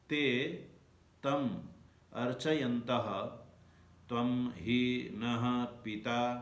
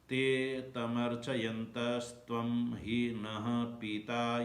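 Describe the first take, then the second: First: The words are pronounced separately, one by one. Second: The words are run together into one stream. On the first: "अब संधि विग्रह करते हैं।" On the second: "उच्चारण करते हैं।"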